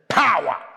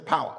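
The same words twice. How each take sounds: First: The word is said in an African style. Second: The word is said in a plain, ordinary way. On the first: "We say power" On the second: "In Africa, we don't say power"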